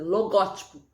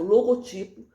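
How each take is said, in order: First: "logótipo" stressed on GÓ; lo-GÓ-ti-po, open stressed GÓ in "logótipo"; proparoxytone stress. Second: "Logotipo" stressed on TI; lo-go-TI-po, weight on TI in "Logotipo"; paroxytone stress. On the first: Teacher showing the second accepted form, stress on GÓ in "logótipo". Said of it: "proparoxítona". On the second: Teacher showing the first accepted form, penultimate stress on "Logotipo". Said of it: "paroxítona". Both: Shown as a demonstration.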